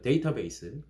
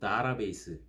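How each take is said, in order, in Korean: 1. 첫 음절은 "day"이고, 그다음은 "ta"예요. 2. 첫 음절은 "dah"이고, 그다음은 "ra"예요. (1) "우리 쉽게 뭐, 예를 들어 데이터베이스, 이렇게 말하죠" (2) "혹은 좀 복합적으로 다라베이스, 이렇게 발음하는 사람들이 있어요"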